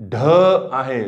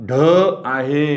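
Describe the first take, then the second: No difference in how they are said.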